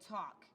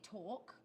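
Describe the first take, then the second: First: It is said in a Staten Island accent. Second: It is said in an English accent.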